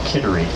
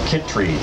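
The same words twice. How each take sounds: First: The name is said in a general, non-local accent. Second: The name is said in a local Maine accent.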